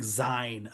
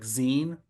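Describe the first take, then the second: First: The vowel sounds like the 'i' in 'mine'. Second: The vowel sounds like the 'ee' in 'mean'. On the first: The speaker calls it wrong. "they don't know how to pronounce the the word Z I N E. They think Zine immediately" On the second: The speaker calls it right. "technically it needs the little apostrophe that it's the end of magazine, so it's like zine"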